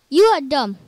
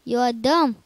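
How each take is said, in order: First: Much louder, slammed on YOU; louder mock scold. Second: Mock scold. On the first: Gamer scolds himself a second time, much louder. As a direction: bark it back harder. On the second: Scolding himself twice.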